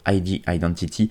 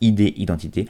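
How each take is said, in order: First: The letters are said the English way. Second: The letters are said the French way. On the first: "je les prononce à l'anglaise" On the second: "mais sinon on peut dire aussi ID Identité"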